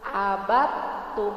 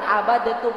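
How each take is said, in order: First: The d merges fully into the t. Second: The d is released separately before the t. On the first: The speaker calls it right. "Dalnya dimasukkan ke huruf ta" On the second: The speaker calls it wrong. "bukan abadetum"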